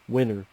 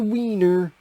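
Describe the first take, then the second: First: The first vowel is a short 'i' sound. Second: The first vowel is a long 'ee' sound. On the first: The speaker calls it right. "he meant winner" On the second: The speaker calls it wrong. "he pronounced it no tis the wiener"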